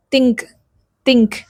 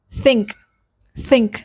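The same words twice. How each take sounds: First: Indian accent: think said with a hard T, tongue touching the teeth; Indian-style think. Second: American TH: breathe out through the gap on think. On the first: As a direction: say think the Indian way, a stopped T instead of TH. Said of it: "In Indian accent, we'll say". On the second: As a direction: think with a soft blown TH, tongue near the teeth but not touching. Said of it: "But in American accent, it's like". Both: Shown as a demonstration.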